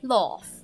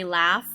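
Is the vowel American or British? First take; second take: British; American. First: It has the British vowel. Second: It has the American vowel.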